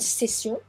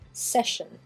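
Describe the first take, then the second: First: The double S sounds like s. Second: The double S sounds like sh. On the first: "une session, c'est exactement la même chose" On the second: "les deux S ici deviennent un son ch"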